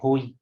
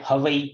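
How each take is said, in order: First: It sounds like 'ho hi' with an h. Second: It sounds like 'havai' with a v. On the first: The speaker calls it right. "तो वो हो ही है" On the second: The speaker calls it wrong. "कोई कोई बोलते हैं हवई"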